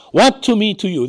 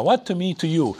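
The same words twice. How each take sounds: First: Mock shriek. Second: Said in the usual way. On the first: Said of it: "He shrieked". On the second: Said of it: "the same phrase that Jesus uses to Mary".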